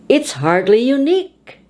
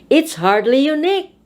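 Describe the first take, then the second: Both takes have the same delivery.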